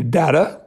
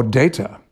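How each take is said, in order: First: Data said with a short flat a, "DAT-uh"; Data with the first vowel short and open; short-A pronunciation. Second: Data said with a long a, "DAY-tuh"; Data with the first vowel as in "day"; long-A pronunciation. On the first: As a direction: say Data as "DAH-ta", not "DAY-ta". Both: Shown as a demonstration. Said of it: "how we should pronounce the".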